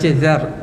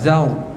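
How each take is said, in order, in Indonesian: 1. Bunyi r diucapkan tipis dan ringan. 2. Bunyi r diucapkan sangat berat dengan bibir membulat. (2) "terlebih tebal, muncung mulut"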